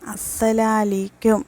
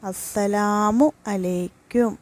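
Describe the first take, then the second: First: The mu a sounds are dropped. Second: Every syllable of the full greeting is pronounced. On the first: May shame be upon you. The speaker calls it wrong. "മൂന്നാമത്തത് അസ്സലാലീക്കും" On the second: May God's protection and peace be upon you. The speaker calls it right. "സലാം പറയേണ്ട ശരിയായ രീതി"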